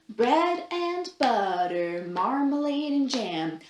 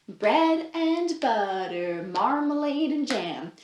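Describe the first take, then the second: The two takes are said the same way.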